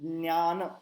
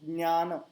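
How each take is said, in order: No difference in how they are said.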